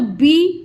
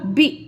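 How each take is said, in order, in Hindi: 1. स्वर लंबा बोला गया है। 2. स्वर छोटा बोला गया है। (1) "बी नहीं होगा" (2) "छोटी की मात्रा तो ... बी होगा"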